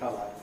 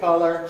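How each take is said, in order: First: It is said in a British accent. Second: It is said in an American accent. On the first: "but not ca" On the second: "Americans would say"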